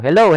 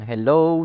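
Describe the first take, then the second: First: The word is shouted loudly. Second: The word is said at normal loudness. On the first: "pasigaw na tayo" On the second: "Normal voice lang"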